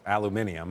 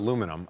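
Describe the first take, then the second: First: It is said in the European form. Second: It is said in the American form.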